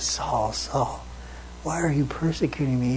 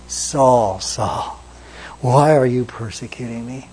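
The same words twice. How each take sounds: First: Softer, hushed plea; a quiet, wounded call; heartbroken. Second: Said in the usual way. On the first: Retold or imitated. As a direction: breathe his name in sorrow. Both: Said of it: "he was heartbroken over that".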